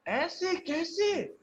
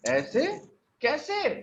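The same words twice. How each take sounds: First: "ऐसे कैसे" stretched slow with a big high leap on "ऐसे"; high slow disbelief. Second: "कैसे?" flicked up high, "ऐसे" lightly up; a quick startled how-so; surprised question. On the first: ("ऐसे" को बहुत ऊँचा और खींचकर, हैरानी में) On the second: ("कैसे?" को ऊपर उठाकर चौंककर पूछना) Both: Shown as a demonstration. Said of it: "stressing कर रहे हैं".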